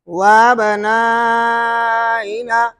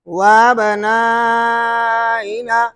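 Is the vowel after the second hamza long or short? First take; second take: long; long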